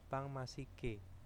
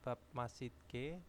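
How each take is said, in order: First: The first word ends with an ng sound. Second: The first word ends with a b sound. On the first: The speaker calls it right. "diucapkannya itu berbeda" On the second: The speaker calls it wrong. "jadi biopnya bukan bab masjidke"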